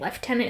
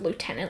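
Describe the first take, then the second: First: The word is pronounced the British way. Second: The word is pronounced the American way.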